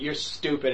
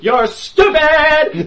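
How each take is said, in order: First: It is said quietly, without projecting. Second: It is said loudly, projected like on stage. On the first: The speaker calls it wrong. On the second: The speaker calls it right.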